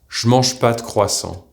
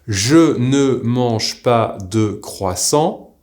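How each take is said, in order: First: Sounds are dropped and squeezed into four syllables. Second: Every syllable is said fully, seven in all. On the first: This is how it is said in regular conversation. "you will hear je mange pas de croissant, to four syllables" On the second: This is the careful form taught in lessons. "We have learned je ne mange pas de croissant, seven syllables"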